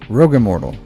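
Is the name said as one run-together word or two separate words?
one word. The two words run together quickly without a gap. The name is written with no space. "Like just one word. You just got to say it really quickly"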